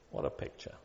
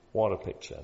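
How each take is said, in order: First: Hushed. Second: Said in the usual way. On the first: Real, not acted. Awed hush after the quote.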